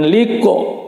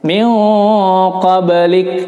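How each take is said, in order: First: The word ends with an added o vowel. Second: The word ends on a bare k sound. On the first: The speaker calls it wrong. "karena jadi salah huruf ya" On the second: The speaker calls it right. "Min qablik bukan liko ya"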